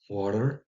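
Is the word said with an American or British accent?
American. An American accent with a D-like sound. The speaker calls it wrong. "avec un D en plus et un A, c'est plutôt côté anglais des États-Unis"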